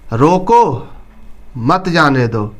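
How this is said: It is read with a pause inside the phrase. The meaning becomes clear. The speaker calls it right. "इसको लगा देते हैं"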